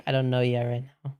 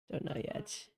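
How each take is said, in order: First: Said in the usual way. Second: Breathy whispered repeat; whispering. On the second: Real, not acted. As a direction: whisper it to yourself. Repeats line, then whispers it.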